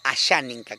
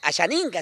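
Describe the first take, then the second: First: The word is articulated cleanly and distinctly. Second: The word is articulated loosely and unclearly. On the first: The speaker calls it right. "sino Ashaninka. Cómo la dicción tiene que trabajarse" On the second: The speaker calls it wrong. "ya no, por ejemplo, decir Ashaninka"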